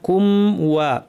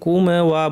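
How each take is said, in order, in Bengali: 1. m মসৃণভাবে ধরে রাখা হয়, কোনো ঝাঁকুনি ছাড়া। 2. m শেষে একটি যোগ করা ঝাঁকুনির প্রতিধ্বনি থাকে। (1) "ওয়া কমপ্লিট হবে।" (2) "অনেকে কুম ওয়া বলেন, এভাবে না"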